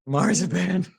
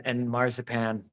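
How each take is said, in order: First: Marzipan said through a laugh, higher; laughing delight. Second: Said in the usual way. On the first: Real, not acted. Relishing the word marzipan with a laugh. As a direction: savor marzipan with a giddy laugh.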